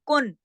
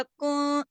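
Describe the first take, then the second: First: कुन with a plain, clear नून; plain कुन with no ghunna; clear izhar. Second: कुन with the नून hidden in a short nasal hum; कुन with a small ghunna; nasal ikhfa. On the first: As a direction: say कुन crisply without nasal hum. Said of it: "इजहार होता तो मैं सीधा कहती". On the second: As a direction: let कुन slip into the nose briefly. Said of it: "आवाज थोड़ी सी नाक में चली गई". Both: Shown as a demonstration.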